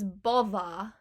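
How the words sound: The word ends with a wide A sound. The speaker calls it right. "it's bother"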